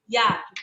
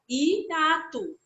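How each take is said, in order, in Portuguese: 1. O i e o a estão juntos. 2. O i e o a são pronunciados separadamente. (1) "A gente não fala hiato" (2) "a gente pronuncia as vogais, né, separadas"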